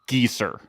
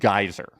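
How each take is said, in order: First: The first vowel sounds like 'ee'. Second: The first vowel sounds like 'eye'. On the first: This is the original family pronunciation. The speaker calls it wrong. "my father's last name is pronounced Geeser" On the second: This pronunciation was adopted to avoid teasing. The speaker calls it right. "my mother changed the pronunciation of our last name to Geyser"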